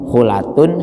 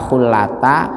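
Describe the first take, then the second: First: The word ends with an 'un' sound. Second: The word ends with a short 'a' sound. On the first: "dibaca ropa semua" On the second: "baca fathah"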